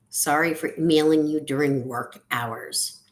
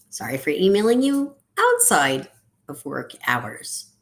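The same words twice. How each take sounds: First: Said in the usual way. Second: Big swooping emphasis on "outside"; stress on OUTSIDE. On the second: Acted. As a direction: lean hard and long on the word "outside". Contrasting apology, key word changed.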